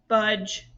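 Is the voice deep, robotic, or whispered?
robotic. The word is said in a flat robotic voice. "say it in a robot voice"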